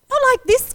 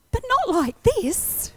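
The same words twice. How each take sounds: First: Higher and louder repeat; a sharper, louder protest; protesting cry. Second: High, slow plea; begging God, drawn out; a high, drawn-out protest; pleading. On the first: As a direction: cry it out to God. Pleading with God. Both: Retold or imitated.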